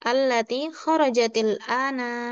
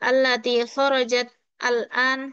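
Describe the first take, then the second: First: Kharajat takes an i vowel, linking into ana. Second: Kharajat ends in a bare t before al-an. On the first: The speaker calls it right. "jadi diharokati dengan kasroh walaupun itu seharusnya sukun. Jadi kasroh" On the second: The speaker calls it wrong. "seperti itu kan tidak sesuai eh, kaidah pengucapannya"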